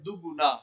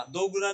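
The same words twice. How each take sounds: First: दुगुना as one word with a short u; first vowel of दुगुना shortened to "du"; joined short form. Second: दो गुना as two words with a full o; uncombined form. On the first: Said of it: "जब जोड़ के बोलते हैं तो बोलते हैं". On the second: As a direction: say दो गुना apart, "do guna". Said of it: "दो गुना नहीं बोला जाता है". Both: Shown as a demonstration.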